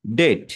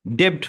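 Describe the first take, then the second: First: ডেট with no b sound before the final t; silent b. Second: ডেপ্ট with the b sounded as a p before t; b pronounced. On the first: Teacher showing learners a silent letter, ডেট with the b left out. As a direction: drop the b entirely in ডেট. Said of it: "বিটা যদি silent হয়ে যায়". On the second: Teacher showing learners the common reading, ডেপ্ট with its b sounded. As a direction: say ডেপ্ট, not dropping the middle consonant. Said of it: "তখন বিটা silent হয়ে যায়". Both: Shown as a demonstration.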